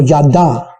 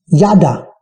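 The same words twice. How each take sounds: First: "yada" stressed on the last syllable, ya-DA; final-syllable stress. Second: "yada" stressed on the first syllable, YA-da. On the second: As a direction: say "yada" as YA-da, falling on the end. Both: Shown as a demonstration. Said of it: "depende del acento que tengas".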